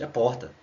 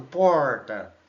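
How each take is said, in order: First: Said in the usual way. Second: Porta said with a São Paulo r, drawn out; mock São Paulo porta. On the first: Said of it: "Não existe isso, gente". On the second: Teacher mocks a Piauí native who picked up São Paulo speech on porta. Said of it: "vai lá pra São Paulo".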